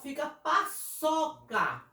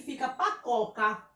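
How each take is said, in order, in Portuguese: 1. A consoante do meio é um som de s suave. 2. A consoante do meio é um som de k duro. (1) "Quando eu coloco, fica paçoca" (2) "se eu não colocar a cedilha aqui, fica pacoca"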